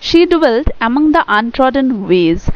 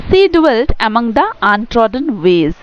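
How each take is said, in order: First: Slow poem reading. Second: The opening line again, very slow and measured; slow poem reading. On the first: Teacher reads the poem's opening line to students, slow deliberate recitation. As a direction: read the poem line very slowly, word by word. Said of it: "তো দেখো". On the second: Teacher repeats the opening line for students, slow deliberate recitation. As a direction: recite each word carefully. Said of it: "তো বলা হয়েছে". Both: Shown as a demonstration.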